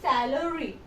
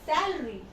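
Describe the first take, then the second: First: The middle vowel is clearly pronounced. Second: The middle vowel is dropped. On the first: The speaker calls it wrong. "you not say salary" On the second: The speaker calls it right. "It's salary. ... You'll remove the A"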